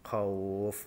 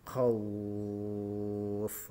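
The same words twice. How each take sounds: First: The vowel before the final sound is held briefly. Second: The vowel before the final sound is held very long. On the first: "Ini yang contoh satu alif" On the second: "tiga alif atau enam harokat"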